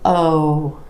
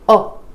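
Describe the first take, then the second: First: The vowel is long with well-rounded lips. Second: The vowel is short and less rounded. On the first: The speaker calls it right. "You want O" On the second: The speaker calls it wrong. "You don't want it to be"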